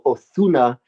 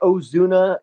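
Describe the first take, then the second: First: The middle consonant is a lisped th, Castilian-style. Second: The middle consonant is a buzzing z sound.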